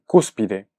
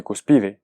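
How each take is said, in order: First: Cúspide said slowly as CÚS-pi-de; cúspide as a proparoxytone, stressed on CÚS; stress on first syllable. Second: Cuspide said cus-PI-de, stress on the middle syllable; misplaced stress. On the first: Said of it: "yo dije cúspide". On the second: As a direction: put the weight on PI in "cuspide". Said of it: "yo no mencioné cuspide". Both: Shown as a demonstration.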